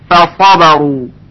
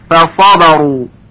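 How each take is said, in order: Both takes have the same delivery.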